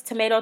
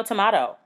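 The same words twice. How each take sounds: First: "tomato" said as "tuh-MAY-toe"; "tomato" with middle syllable "may". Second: "tomato" said as "tuh-MAH-toe"; "tomato" with middle syllable "mah". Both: Shown as a demonstration. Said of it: "I don't know if it's tomato, tomato".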